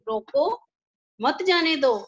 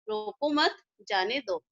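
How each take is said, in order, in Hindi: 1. छोटा विराम 'roko' के ठीक बाद आता है। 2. छोटा विराम 'mat' के ठीक बाद आता है। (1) "कि उसको रोको मत जाने दो" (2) "दूसरे में है कि रोको मत जाने दो उसको"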